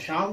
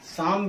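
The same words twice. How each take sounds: First: The word begins with an 'sh' sound. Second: The word begins with an 's' sound. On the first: The speaker calls it right. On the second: The speaker calls it wrong.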